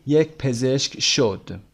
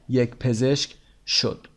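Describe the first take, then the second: No difference in how they are said.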